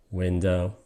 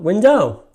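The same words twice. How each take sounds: First: "window" low and soft, stressed on the first syllable. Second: "window" as win-DOW, second syllable high and loud; wrong stress on DOW. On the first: Teacher showing how the word must be pronounced, WIN-stressed window. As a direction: say WIN-dow with an unstressed ending. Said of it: "the word must be pronounced". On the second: Teacher showing how not to pronounce it, win-DOW. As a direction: punch the end of "window". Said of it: "not window". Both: Shown as a demonstration.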